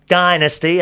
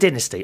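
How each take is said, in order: First: It is said with an American pronunciation. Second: It is said with a British pronunciation.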